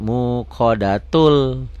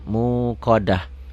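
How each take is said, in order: First: The ending is pronounced with a t sound. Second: The ending is pronounced with an h sound. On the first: The reading continues into the next word. "kalau disambung ini tetap bunyinya T" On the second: The reading stops on this word. "Tapi kalau dihentikan muqadah"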